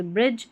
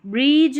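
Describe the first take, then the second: First: ब्रिज with a short, quick "i"; short vowel. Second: ब्रिज with a long, stretched "ee"; long-vowel mispronunciation. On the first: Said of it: "ब्रिज, short इसका डीजीई का उच्चारण". (ब्रिज को छोटी इ से) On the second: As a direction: say ब्रिज wrongly as "breeej", vowel drawn out. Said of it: "ब्रिज नहीं पढ़ते, ब्रिज, short". (ब्रिज को लंबी ई से खींचकर) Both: Shown as a demonstration.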